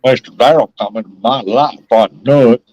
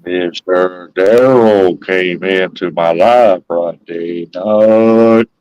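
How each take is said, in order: First: A little Southern drawl on it; added drawl. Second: Very slow, low, stretched-out words; exaggerated slow. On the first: Man repeating his line for a friend, with a drawl. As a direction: lean into a drawl, less slowed down. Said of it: "just put a little bit of drawl with it". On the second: Man told he talks too fast, teasingly slowed right down. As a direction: drag every word out low for a slow listener. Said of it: "Maybe you need to slow it down". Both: Shown as a demonstration.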